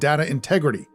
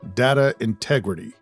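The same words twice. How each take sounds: First: It is said plainly, without gravitas. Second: It is said slowly and with gravitas.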